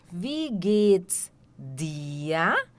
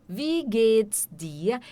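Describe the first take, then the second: First: "Wie geht's dir?" drawn out very slowly, word by word; slow teacher model of "Wie geht's dir?"; very slow demo. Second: "Wie geht's dir?" said slowly but more joined up; slowed demo. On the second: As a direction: model "Wie geht's dir?" at a slow, even pace. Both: Shown as a demonstration.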